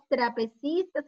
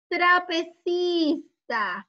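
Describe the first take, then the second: First: Said in the usual way. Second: Very slow, higher TRAPECISTAS; drawn-out model word. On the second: Shown as a demonstration. Teacher introducing an image with tra, very slowly drawn out. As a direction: stretch "Trapecistas" syllable by syllable, pitched up.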